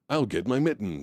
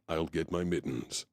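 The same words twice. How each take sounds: First: It is said in a goofy, silly tone. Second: It is said in a very serious tone.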